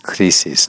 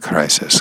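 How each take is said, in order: First: The word is said with Spanish sounds. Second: The word is said with English sounds. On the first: The speaker calls it right. "So in Spanish, it's crisis" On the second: The speaker calls it wrong. "not crisis"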